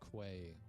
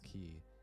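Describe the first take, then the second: First: The word is said as 'kway', like its spelling. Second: The word is said as 'key', rhyming with 'see'. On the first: The speaker calls it wrong. "I said a quay wall" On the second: The speaker calls it right. "it's pronounced key"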